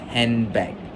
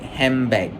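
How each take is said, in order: First: The n before b is a clear n. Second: The n before b sounds like an m. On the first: "instead of handbag" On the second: "the N sound at the end of hand is influenced by the B sound, making it sound more like handbag"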